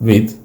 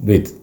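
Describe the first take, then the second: No difference in how they are said.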